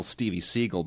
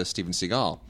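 First: SEAGAL said "SEE-gul"; schoolmate's pronunciation. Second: SEAGAL said "si-GAHL"; star-name pronunciation. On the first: Retold or imitated. Host quoting the old schoolmate, Seagal as SEE-gul. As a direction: stress the first syllable of Seagal, SEE-gul. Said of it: "and she goes". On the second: Shown as a demonstration. Host naming the star, Seagal as si-GAHL. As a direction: stress the second syllable of Seagal, si-GAHL. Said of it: "He was little Stevie Seagal back then".

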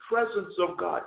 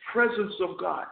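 Both takes have the same delivery.

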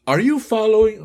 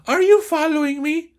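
First: Higher, louder student voice; a first, not female enough try at Raquel; Raquel's voice. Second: Very high female voice; corrected high falsetto Raquel; Raquel's voice. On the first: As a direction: Raquel asking in a raised voice. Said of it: "viene Raquel ahora y dice". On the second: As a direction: push the pitch up to sound like a woman. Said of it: "ese Raquel es mujer". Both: Acted.

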